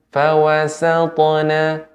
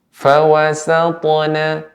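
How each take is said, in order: No difference in how they are said.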